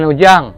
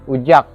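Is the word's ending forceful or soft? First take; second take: soft; forceful. First: The word ends with a soft, nasal final sound. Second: The word ends with a forceful, pressed final sound. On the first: This is the way it is said elsewhere. "bukan ujang" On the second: This is the local Kayong way. "dia ada tekanan"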